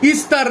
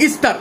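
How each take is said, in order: No difference in how they are said.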